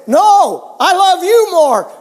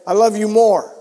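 First: Higher and louder, topping the grandson; louder playful insistence. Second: Said in the usual way. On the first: Retold or imitated. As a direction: raise the voice to win the loving game. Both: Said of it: "The louder you said it".

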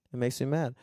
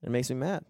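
No difference in how they are said.

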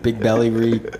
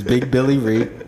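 First: BELLY with an open "eh" vowel; name as Belly. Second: BILLY with a short "ih" vowel; name as Billy. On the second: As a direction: say BILLY slowly, first vowel as in "bill". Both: Shown as a demonstration. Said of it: "whatever the context is".

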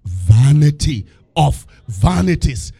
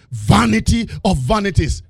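First: Slow solemn reading. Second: Chanted. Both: Shown as a demonstration. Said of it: "said the preacher".

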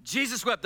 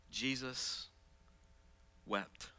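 First: Loud, high proclamation; proclaimed. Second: Hushed reading. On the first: Pastor proclaiming the verse to the church, loud. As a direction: hit both words full voice. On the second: Pastor reading the verse to the church, hushed. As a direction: let the two words fall quietly. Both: Acted.

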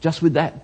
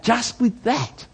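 First: Said in the usual way. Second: "with" drawn out high and slow; stress on with. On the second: Shown as a demonstration. Preacher lingering on "just with that". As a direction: stretch "with" up and slowly.

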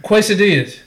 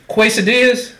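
First: Quesadillas said again as kway-sa-dee-as, incredulous; puzzled Quesadillas. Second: Quesadillas said the wrong way, as kway-sa-dee-as; mock-naive Quesadillas with a kw sound; mispronounced quesadillas. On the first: Mocking the word, Quesadillas said as kway-sa-dee-as. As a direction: repeat Quesadillas wrong, with a kw sound and a falling tone. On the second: Mocking a wrong pronunciation, Quesadillas said as kway-sa-dee-as. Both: Shown as a demonstration.

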